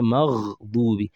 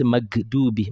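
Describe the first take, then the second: First: It has a throaty, gargled gh sound. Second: It has a hard g sound. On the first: The speaker calls it right. "Say maghdubi" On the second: The speaker calls it wrong. "Don't say magdubi"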